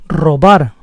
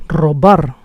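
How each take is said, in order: Both takes have the same delivery.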